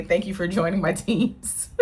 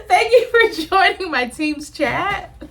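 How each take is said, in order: First: Said in the usual way. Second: Higher and slow, hammed-up meeting host; a playful fake office host voice; mock corporate host. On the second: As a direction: play the chirpy boss closing a call. Mock team meeting sign-off.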